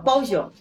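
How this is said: It is said the Mexican way, with a y-sound.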